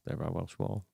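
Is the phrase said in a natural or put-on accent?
natural. It is said in a plain, natural voice. The speaker calls it wrong.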